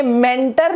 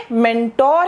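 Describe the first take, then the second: First: मेंटर with a weak, short 'ter' ending; wrong pronunciation. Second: मेंटोर with a full, long 'tor' ending; correct pronunciation. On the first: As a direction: say मेंटर as 'MEN-ter', reduced last vowel. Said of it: "ये मेंटर नहीं है". (मेंटर के अंत में छोटा 'टर') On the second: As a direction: say मेंटोर as 'men-TOR', rounded last vowel. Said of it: "ये मेंटोर है". (मेंटोर के अंत में लंबा 'टोर') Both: Shown as a demonstration.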